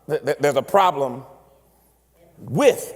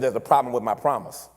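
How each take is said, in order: First: The stress falls on the word with. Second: The stress falls on the word problem. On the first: Problems come alongside the promise. The speaker calls it right. "if you change the emphasis" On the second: The promise itself is faulty. The speaker calls it wrong. "Most of us make a mistake with that that phrase"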